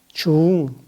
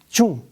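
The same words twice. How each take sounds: First: The vowel is held long. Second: The vowel is kept short. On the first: It means heavy or important. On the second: It means again or repeated.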